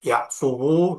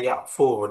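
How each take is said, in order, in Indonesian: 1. Kata ini berakhir dengan suku kata wu tambahan. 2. Kata ini berakhir dengan satu vokal u. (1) "itu dianggap berat" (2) "Hanya dibaca yakfu, disukunkan"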